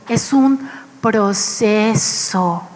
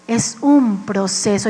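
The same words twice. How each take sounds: First: Es un proceso with "un" drawn out slowly and leaned on; slow stress on un. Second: Said in the usual way. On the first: Shown as a demonstration. Preacher drives home the point, slow and heavy on "un". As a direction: linger on the word "un" and let it fall.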